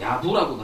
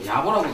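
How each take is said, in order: First: The second syllable has a 'u' vowel. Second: The second syllable has an 'o' vowel. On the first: "야부라고도 발음할 때가 있고" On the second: "야보라고 발음할 때가 있는데"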